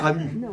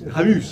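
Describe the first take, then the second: First: The name ends on the vowel, no s sound. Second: The name ends with an audible s sound. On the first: This is how it is said outside the south. "À Nîmes, on ne dit pas Ramu" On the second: This is how it is said in the south. "On dira Ramus"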